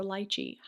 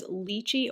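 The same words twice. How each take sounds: First: "lychee" with an EYE vowel in the first syllable; first syllable of "lychee" rhymes with "lie"; lychee pronounced LIE-chee. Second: "lychee" with a long EE in the first syllable; first syllable of "lychee" rhymes with "see"; lychee pronounced LEE-chee. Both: Shown as a demonstration. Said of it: "Every country seems to say it differently".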